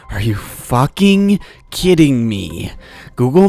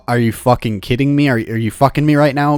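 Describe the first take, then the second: First: Each word dragged out, flat with disbelief; slow disbelief. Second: Quick indignant outburst. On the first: Stuck in the left lane, he drawls his disbelief at the app. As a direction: let the disbelief stretch every word. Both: Retold or imitated. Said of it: "And I'm like".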